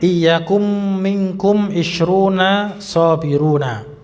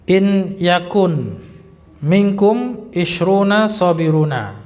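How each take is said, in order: First: The n of 'in' merges into the next word. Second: The n of 'in' is pronounced clearly. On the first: "Al-Quran kita pakai tajwid juga boleh" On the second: "Ini saya bacanya tanpa tajwid"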